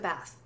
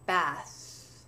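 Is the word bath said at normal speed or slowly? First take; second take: normal speed; slowly. First: The word is said at normal speed. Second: The word is drawn out slowly. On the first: "if I say it in a normal sentence" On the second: "when I say it slowly a few times"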